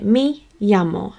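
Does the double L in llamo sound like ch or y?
y. The double L sounds like y. This is the speaker's own pronunciation. "which is a y sound"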